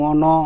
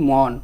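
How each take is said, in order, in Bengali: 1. শব্দটি n-এর পরে একটি স্বরধ্বনি দিয়ে শেষ হয়। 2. শব্দটি ব্যঞ্জন n দিয়ে শেষ হয়। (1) "এভাবে কি কখনো বলি, কখনো বলি না" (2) "বলি মন"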